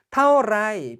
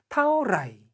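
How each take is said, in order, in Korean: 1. 마지막 음절은 평성입니다. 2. 마지막 음절은 일성입니다. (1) "평성으로 가면 문어체" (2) "일성으로 가면 회화체"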